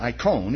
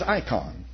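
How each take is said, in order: First: The last syllable has an 'oh' vowel. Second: The last syllable has an 'ah' vowel. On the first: The speaker calls it right. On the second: The speaker calls it wrong.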